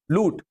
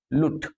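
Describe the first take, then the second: First: "लूट" with a long, pressed u; lengthened vowel. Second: "लुट" with a short, unstressed u; clipped short u in "लुट", no weight on it; short vowel. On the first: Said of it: "तो हमने स्वर बढ़ा दिया". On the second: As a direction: keep the vowel in "लुट" brief. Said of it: "लुट मतलब खुद". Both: Shown as a demonstration.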